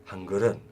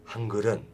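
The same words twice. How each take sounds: The two takes are said the same way.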